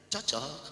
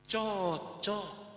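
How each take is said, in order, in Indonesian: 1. Diucapkan sebagai pertanyaan yang menyelidik. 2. Diucapkan dengan nada mengejek, sarkastik. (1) "baru dia tanya" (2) "Tapi kalau saya bilang begini"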